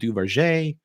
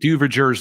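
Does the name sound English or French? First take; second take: French; English. First: The name is said with a French-style pronunciation. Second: The name is said as English spelling suggests. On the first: "It's probably closer to Duverger" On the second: "you could pronounce it Duverger's law. That'll help you more phonetically find it"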